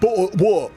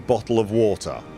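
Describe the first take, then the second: First: It is said in the daughter's mock English accent. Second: It is said in the speaker's natural voice.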